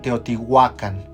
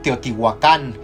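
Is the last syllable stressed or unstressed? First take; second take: unstressed; stressed. First: The last syllable carries no stress. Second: The stress falls on the last syllable. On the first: This is closest to the original Nahuatl. The speaker calls it right. "lo más cercano al náhuatl ... No hay acento" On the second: This is how people usually say it. The speaker calls it wrong. "generalmente le, hace, le eh, dicen Teotihuacán"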